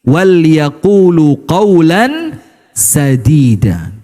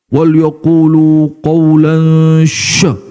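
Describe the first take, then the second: First: The last word starts with a plain s sound. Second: The last word starts with a sh sound. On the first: The speaker calls it right. "Sa, sin" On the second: The speaker calls it wrong. "Itu kalau di khutbah Jumat itu"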